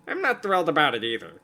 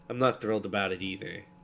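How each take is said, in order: First: It is said in a put-on Redditor voice. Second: It is said in Dragon's normal voice.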